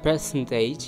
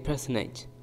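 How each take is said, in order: First: The T after the N is clearly pronounced. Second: The T after the N is dropped. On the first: The speaker calls it wrong. "Instead of percentage" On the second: The speaker calls it right. "you might say personage"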